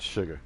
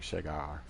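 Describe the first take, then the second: First: The ending is soft and relaxed. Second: The ending is strongly and fully enunciated. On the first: The speaker calls it right. "but it's sugar" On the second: The speaker calls it wrong. "there's too much uh, pronunciation on the end"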